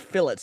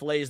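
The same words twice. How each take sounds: First: It is said with an American pronunciation. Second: It is said with a French pronunciation. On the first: The speaker calls it right. "say fillets because that's the American way" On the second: The speaker calls it wrong. "fillets is a French word"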